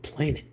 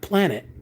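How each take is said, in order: First: The first syllable sounds like 'plane'. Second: The first syllable sounds like 'plan'. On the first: The speaker calls it right. "but planet, which is a plane" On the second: The speaker calls it wrong. "not planet"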